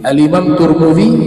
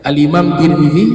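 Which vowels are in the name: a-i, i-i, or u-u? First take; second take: u-u; i-i. First: The name is said with u and u vowels. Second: The name is said with i and i vowels. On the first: "Turmuzi itu betul" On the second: "Kamu sebut Tirmidzi itu betul"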